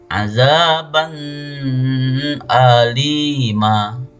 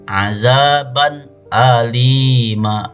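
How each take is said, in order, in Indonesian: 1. Bunyi n kabur dan disengaukan ke bunyi berikutnya. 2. Bunyi n dibaca jelas tanpa pencampuran sengau. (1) "Tidak boleh membacanya" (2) "Harus jelas"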